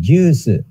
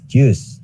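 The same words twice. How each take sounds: First: It is said with a long vowel and added su. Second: It is said as one syllable, ending in s. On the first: "Jadi juice" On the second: "Ini dari bahasa Inggris juice"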